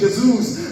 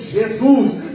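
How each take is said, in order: First: It is said quickly with a European Portuguese accent. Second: It is said with a Brazilian Portuguese accent. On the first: "os portugueses dizem rapidinho" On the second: "nós brasileiros dizemos"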